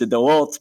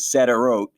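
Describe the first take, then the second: First: The name is pronounced the Hebrew way. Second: The name is pronounced the anglicized way. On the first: "the way I know to say it in Hebrew" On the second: "the way you hear it on the news"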